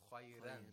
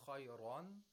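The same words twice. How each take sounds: First: The r sound is light and thin. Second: The r sound is heavy and thick. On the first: "Warsh says khayran because it's preceded by a ya ulmad" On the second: "Haf says khayran"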